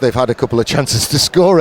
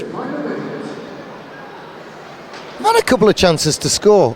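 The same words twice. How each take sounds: First: It is said in his normal voice. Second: It is said in a put-on voice.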